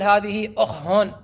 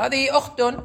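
First: The last word ends with an h sound. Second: The last word ends with a t sound. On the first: The speaker calls it wrong. "لا تقول هذه أخهن" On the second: The speaker calls it right. "تقول هذه أخت"

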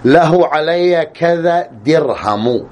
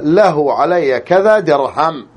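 First: The last word ends in a short u vowel. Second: The last word ends on a bare m sound. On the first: "الرفع" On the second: "بسكون الميم"

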